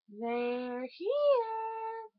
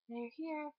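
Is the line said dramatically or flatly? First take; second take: dramatically; flatly. First: It is said in the dramatic, iconic way. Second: It is said in a flat, unremarkable way.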